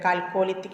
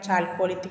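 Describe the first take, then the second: First: The word begins with a k sound. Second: The word begins with a ch sound. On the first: "രണ്ട് രീതിയിൽ ഉച്ചരിക്കുന്നുണ്ട്" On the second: "രണ്ട് രീതിയിൽ ഉച്ചരിക്കുന്നുണ്ട്"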